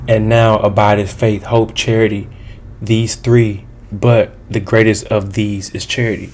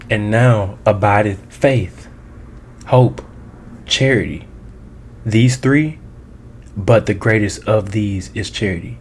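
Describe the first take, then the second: First: It is read at a quicker pace. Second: It is read at a slower pace.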